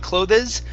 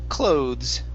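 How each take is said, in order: First: The E is sounded as an extra syllable. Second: The E is silent, giving one syllable. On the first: The speaker calls it wrong. "We don't say clothes" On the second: The speaker calls it right. "The E here is not pronounced. The word is clothes"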